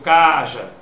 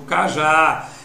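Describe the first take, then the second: First: The first syllable is lengthened and stressed. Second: The second syllable is lengthened and stressed. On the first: The speaker calls it wrong. "ou eu digo caja?" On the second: The speaker calls it right. "a sílaba que pôde ser prolongada foi o já"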